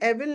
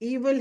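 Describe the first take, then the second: First: The first vowel is a short 'eh' sound. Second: The first vowel is a long 'ee' sound. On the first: The speaker calls it wrong. "एविल नहीं बोलिए" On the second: The speaker calls it right. "ईविल है इसका correct pronunciation"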